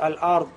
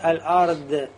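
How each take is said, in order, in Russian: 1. Последний согласный звучит как t. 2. Последний согласный звучит как d. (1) "как будто т получается" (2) "как даль получает"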